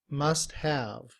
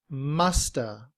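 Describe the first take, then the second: First: Both words are said fully and clearly. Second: The words blend together as 'musta'. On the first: "In citation form" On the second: "in reduced form, must have becomes musta"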